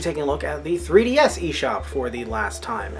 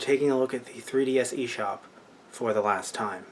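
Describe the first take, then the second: First: It is said in a light, casual tone. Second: It is said in a more somber tone. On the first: "I don't sound somber" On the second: "I should sound more somber"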